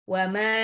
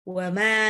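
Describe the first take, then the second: Both takes have the same delivery.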